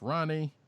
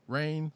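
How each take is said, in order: First: The name is said with two syllables. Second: The name is said with one syllable. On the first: The speaker calls it wrong. "I would have said Ronnie, and you corrected me" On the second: The speaker calls it right. "excuse me"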